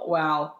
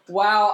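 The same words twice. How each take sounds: First: It sounds disappointed. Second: It sounds admiring.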